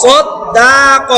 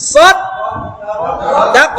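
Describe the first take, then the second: First: সদ্দাক with the দা drawn out long and slow; wrong long vowel. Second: সদ দাক with a short clipped দা; short correct vowel. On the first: Teacher demonstrating the wrong lengthened vowel. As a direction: stretch the দা in সদ্দাক too long. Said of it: "এটা হবে না". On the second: Teacher showing students the right short reading. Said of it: "দাক একসাথে". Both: Shown as a demonstration.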